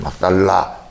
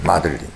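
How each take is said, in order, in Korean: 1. 한국식 'Mak-dal-la'로 발음합니다. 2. 영어식 'Madeline'으로 발음합니다.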